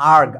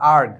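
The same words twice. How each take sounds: First: The word ends with a hard g sound. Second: The word ends with a hard g sound.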